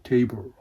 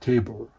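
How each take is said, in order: First: The word is said with English pronunciation. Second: The word is said with English pronunciation.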